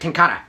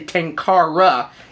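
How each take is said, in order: First: It is pronounced in a Japanese style. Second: It is pronounced in a non-Japanese, English style. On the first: "It's more like Tenkara" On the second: "in Japan you typically don't say Tenkara"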